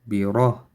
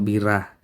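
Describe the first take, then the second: First: The r is heavy, with a full mouth. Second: The r is light, with a thin mouth. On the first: The speaker calls it right. "ra here again heavy" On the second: The speaker calls it wrong. "not bira"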